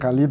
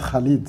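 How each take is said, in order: First: The name is said with a French-style pronunciation. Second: The name is said with an Arabic-style pronunciation. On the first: The speaker calls it wrong. "Au départ, je disais Khalid" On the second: The speaker calls it right. "maintenant je dis Khalid"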